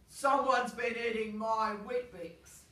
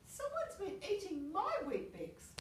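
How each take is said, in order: First: It is said in a big, deep voice. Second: It is said in a medium-sized voice.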